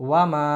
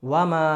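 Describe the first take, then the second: The two takes are said the same way.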